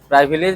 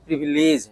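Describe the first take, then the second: First: The first vowel sounds like 'eye'. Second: The first vowel is a short 'i'. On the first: The speaker calls it wrong. "नहीं" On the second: The speaker calls it right. "है"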